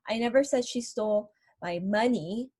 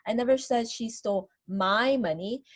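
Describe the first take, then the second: First: The word money is stressed. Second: The word my is stressed. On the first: She may have taken something other than money. "what I'm stressing is that she stole something else from me" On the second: The money taken may have belonged to someone else. "Maybe I'm talking about somebody else's money"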